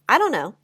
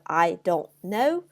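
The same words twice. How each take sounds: First: The words are squashed together and reduced. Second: Each word is said fully and separately.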